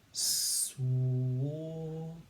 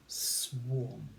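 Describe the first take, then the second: First: Swarm stretched very slowly, sound by sound; slowly stretched phonics sounding. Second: Said in the usual way. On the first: Shown as a demonstration. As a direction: segment swarm s-w-ar-m. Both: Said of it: "we're just gonna add s".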